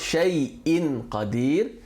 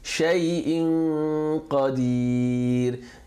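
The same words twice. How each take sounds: First: The n is pronounced fully before the q. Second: The n is half merged into the q. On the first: The speaker calls it wrong. "It's not" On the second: The speaker calls it right. "preparing your mouth and your tongue to pronounce the qaf while reading the noon"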